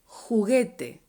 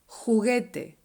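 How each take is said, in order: No difference in how they are said.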